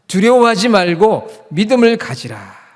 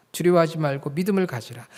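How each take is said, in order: First: High, loud, slow exhortation; emphatic proclamation. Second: Said in the usual way. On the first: Acted. Preacher proclaims to congregation not to fear, loud slow exhortation. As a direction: proclaim it boldly, stretching each phrase.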